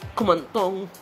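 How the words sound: It is said in a sad, tearful voice. "masama ang loob mo. Naiiyak"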